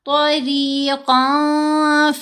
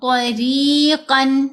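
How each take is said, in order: First: The n is hidden in a lengthened nasal sound. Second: The n is pronounced clearly at the end. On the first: The speaker calls it right. "नाक में भी छुपाना है और गुन्ना हफीफ करते हुए दो हरकत की मिकदार इसको लंबा करना है" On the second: The speaker calls it wrong. "तरीकन कन नहीं पढ़ना"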